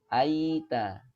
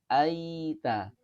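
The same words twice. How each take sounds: The two takes are said the same way.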